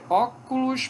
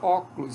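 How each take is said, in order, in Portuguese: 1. As três sílabas são pronunciadas totalmente. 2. A vogal depois da sílaba tônica é apagada.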